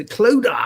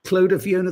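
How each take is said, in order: First: Cloda! called out high and loud, savouring the name; relished exclamation. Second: Savoured name. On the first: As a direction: belt out Cloda! with delight. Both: Real, not acted. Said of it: "I love to say".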